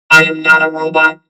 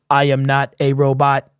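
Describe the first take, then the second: First: The voice sounds processed and robotic. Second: The voice sounds natural and unprocessed.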